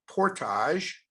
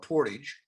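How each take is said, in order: First: The word is pronounced the French-Canadian way. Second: The word is pronounced the plain English way. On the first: "that's the French-Canadian pronunciation" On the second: "or you call it portage"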